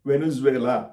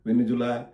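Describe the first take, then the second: First: The name ends in a longer 'zuvela' sound. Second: The name ends in a short 'zula', like Manjula. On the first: The speaker calls it right. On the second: The speaker calls it wrong. "మంజులా అలా ఇలా కాదు"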